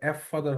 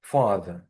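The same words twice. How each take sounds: First: Letter name "ef" before ফাদার; wrongly literal এফ ফাদার, with an extra "ef"; spelled-out F. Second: ফাদার as a firm, falling "FA-da", no R; louder teacher's model of ফাদার, ending without R; silent final R. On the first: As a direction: say এফ ফাদার, naming the F first. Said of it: "এফ ফাদার হওয়ার কথা ছিল". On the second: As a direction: open ফাদার on a pure F sound, drop the R. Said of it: "উচ্চারণের সময় এটা হয় না". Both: Shown as a demonstration.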